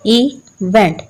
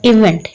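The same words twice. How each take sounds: First: "इवेंट" broken in two, इ, then वेंट; split into syllables. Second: Said in the usual way. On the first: Shown as a demonstration. ("इवेंट" को दो हिस्सों में तोड़कर: इ - वेंट) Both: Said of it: "इसके टू syllables हैं".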